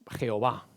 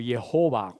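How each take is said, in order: First: The name is pronounced with Spanish sounds. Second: The name is pronounced with English sounds. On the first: This is how the name is said in Spain. "nosotros en España llamamos a, a Jehová" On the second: This is how the name is said in English. "cuando se pronuncia en inglés"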